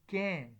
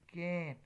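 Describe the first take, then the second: First: The vowel is full and clearly pronounced. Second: The vowel is full and clearly pronounced.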